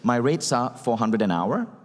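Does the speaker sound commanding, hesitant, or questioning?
questioning. The voice rises at the end, like a question. The speaker lacks confidence in the price. The speaker calls it wrong. "Notice the inflection. You're, you're failing in terms of confidence"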